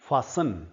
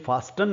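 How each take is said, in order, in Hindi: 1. t की ध्वनि मौन रहती है। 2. t की ध्वनि बोली जाती है। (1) "जैसे लिसन है वैसे ही फासन है" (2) "ये फास्टन नहीं है"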